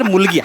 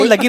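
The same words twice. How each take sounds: First: मुलगी said as a single unbroken word; one joined word. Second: Director mimicking the actor's misreading, मुलगी broken after its first syllable; मुलगी said wrongly as two pieces, मु and लगी; mispronounced word. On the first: Director teaching the actor, मुलगी as one word. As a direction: join मु and लगी into मुलगी. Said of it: "हा एकच शब्द आहे sir". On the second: Director correcting the actor, mimicked misreading of मुलगी. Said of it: "मुलगी नाही sir". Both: Shown as a demonstration.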